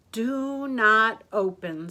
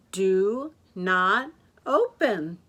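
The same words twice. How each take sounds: First: "Do not open" slow and loud; deliberate sign reading. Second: "Do not open" word by word, loud, with pauses; emphatic sign reading. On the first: Martha sees the sign, "Do not open" read deliberately. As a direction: stretch each word of "Do not open". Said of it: "said the sign". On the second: Martha rereads the sign, "Do not open" one word at a time. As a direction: stretch and separate "Do", "not", "open". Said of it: "She read the sign again". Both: A narrator's reading.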